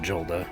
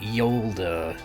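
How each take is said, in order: First: The name begins with a J sound. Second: The name begins with a Y sound. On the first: The speaker calls it wrong. "not Jolda" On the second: The speaker calls it right. "You pronounced it Yolda"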